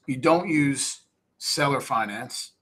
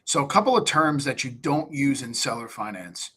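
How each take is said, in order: First: "You don't use seller finance", each word spaced out slowly; slow, deliberate stress on "don't". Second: Said in the usual way. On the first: Shown as a demonstration. Coaching investors on words to avoid with sellers, slow emphatic stress.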